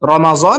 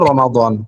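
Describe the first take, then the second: First: The middle consonant sounds like a z. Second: The middle consonant is a heavy d-like sound.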